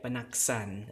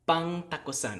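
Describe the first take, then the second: First: It has a single n, and the o is dropped. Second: It keeps the ng and t, and the o. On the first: This is the final form after assimilation and deletion. "We get panaksan" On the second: This is the underlying form before the sound changes. "we have an N G and a T"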